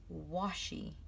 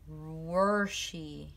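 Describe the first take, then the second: First: The first syllable has no r sound. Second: The first syllable has an r sound. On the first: The speaker calls it right. "when really it should be washy" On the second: The speaker calls it wrong. "I say washi weird sometimes. Like it sounds like worshy"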